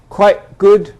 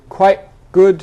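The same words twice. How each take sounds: Both takes have the same delivery.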